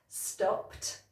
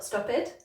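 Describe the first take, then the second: First: The ending is said as a T sound. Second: The ending is said as an extra syllable. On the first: The speaker calls it right. "it should be a T sound" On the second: The speaker calls it wrong. "not stopped"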